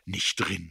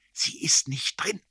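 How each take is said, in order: First: Said in the usual way. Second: Slow, intense, high whisper; whisper in the ear. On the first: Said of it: "jetzt musste ich selber lachen". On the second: A narrator's reading. Erik blows it into the narrator's ear, whispering. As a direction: breathe it slowly into the ear, urgently. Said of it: "blies er mir ins Ohr".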